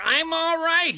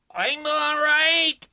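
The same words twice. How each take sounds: First: Loud reassuring yell. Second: Loud, slow reassuring yell. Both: Acted. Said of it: "Briggs yelled to reassure her".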